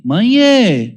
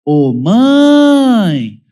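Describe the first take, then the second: First: High, loud sweet "Mãe, é" asking nicely; child politely petitioning mother, sweet request; polite child's request. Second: High, loud tattling "Ô, mãe!" with a rise and fall; child calling mother to accuse sibling, whiny call; accusing child's call. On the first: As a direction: say "Mãe, é" like a kid about to ask a favour. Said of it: "É diferente quando fala assim". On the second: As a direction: yell "Ô, mãe!" like a kid reporting a brother. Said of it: "normalmente acompanhado de". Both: Retold or imitated.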